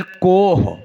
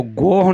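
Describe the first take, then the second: First: कोह with a crisp K at the start; correct word with K. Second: गोह with a voiced G at the start; wrong word with G. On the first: Preacher corrects to the Persian for mountain, कोह with initial K. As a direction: say कोह, opening on K instead of G. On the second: Preacher rules out the animal's name, गोह with initial G. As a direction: say गोह, opening on a hard G. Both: Shown as a demonstration. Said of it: "तो गोह नहीं, कोह".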